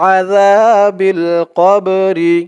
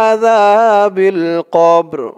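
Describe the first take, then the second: First: The phrase ends with an i vowel. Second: The phrase ends on the consonant r. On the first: The reader goes straight on to the next word. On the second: The reader stops after this phrase.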